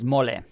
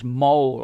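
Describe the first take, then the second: First: It is pronounced the Spanish way. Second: It is pronounced like the English word. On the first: It names the Mexican dish. "in Spanish it's mole" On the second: It names a mark on the skin. "like the word in English mole"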